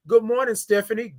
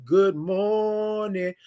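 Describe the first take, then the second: First: Said in the usual way. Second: Very slow, drawn-out "Good morning" with the r left off, "mornin'"; signature good morning. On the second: Shown as a demonstration. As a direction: stretch "Good morning" long and lazy, no r sound. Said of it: "That's how you do it".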